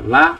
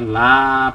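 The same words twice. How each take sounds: First: The vowel in la is cut short. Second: The vowel in la is held long. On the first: It means truly. "la pendek gitu" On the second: It means no. "la panjang"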